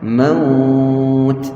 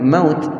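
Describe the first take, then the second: First: The vowel before the final t is lengthened. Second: The vowel before the final t is short. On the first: The speaker calls it right. "Bila kita nak berhenti tu panjangkan sikit waw" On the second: The speaker calls it wrong. "Jangan maut"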